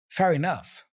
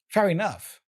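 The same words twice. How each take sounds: No difference in how they are said.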